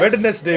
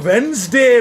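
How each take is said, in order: First: It is said as three syllables, Wed-nes-day. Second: It is said as two syllables, Wens-day. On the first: "वेड का नेस का डे" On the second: "वो वेंसडे मैं नहीं बोलता"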